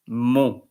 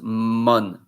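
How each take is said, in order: First: The final n is silent. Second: The final n is pronounced. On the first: The speaker calls it right. "you pronounce it mon" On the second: The speaker calls it wrong. "You don't pronounce mon"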